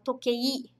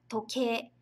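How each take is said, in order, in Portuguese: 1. A palavra termina com um som de 'i' distinto no final. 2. A palavra termina com um som de 'e' alongado. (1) "no dia a dia a gente não fala toquei" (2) "a gente fala toque"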